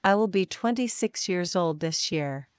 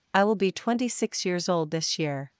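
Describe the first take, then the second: No difference in how they are said.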